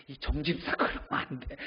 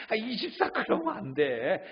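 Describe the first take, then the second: First: Stern scolding. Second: Higher pleading scold. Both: Retold or imitated. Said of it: "그럼 우리는 대부분 뭐라고 합니까".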